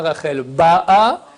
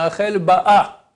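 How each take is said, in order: First: "Rachel Ba'a" with a long, stressed Ba; stress on first syllable. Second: "Rachel Ba'a" with the final a stressed; short Ba, accent the end of "Ba'a"; stress on last syllable. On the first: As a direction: lean on the Ba of "Ba'a". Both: Shown as a demonstration. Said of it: "où tu mets l'accent dans le Ba'a".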